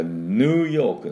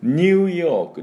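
First: ヌーヨーク drawn out on a plain "noo"; American New York. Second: ニューヨーク starting with a "nyoo" glide; British New York. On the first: Teacher contrasts two ways of saying New York, American version. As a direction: say ヌーヨーク with no glide after N. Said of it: "ヌーと発音するのはアメリカ式。". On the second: Teacher contrasts two ways of saying New York, British version. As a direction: say ニューヨーク with Y after the N. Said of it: "イギリスではこれニューって言います。". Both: Shown as a demonstration.

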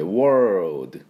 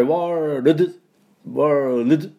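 First: World with L and D merged; correct world. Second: World with each letter sounded, slow; the wrong, too careful world; overdone world. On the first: Teacher modelling the right world for learners. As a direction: blend L and D in world. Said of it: "LとDを一緒に出すような感じで". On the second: Teacher exaggerating world to show what not to do. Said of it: "ここまで言いません". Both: Shown as a demonstration.

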